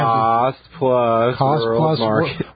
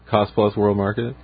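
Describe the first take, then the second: First: It is said more loudly. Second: It is said at a normal volume.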